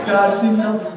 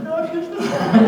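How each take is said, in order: First: Pleading prayer. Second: High, pleading laughing prayer; desperate prayer. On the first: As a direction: beg again, a bit calmer. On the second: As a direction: beg God in mock panic. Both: Retold or imitated. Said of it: "I started praying".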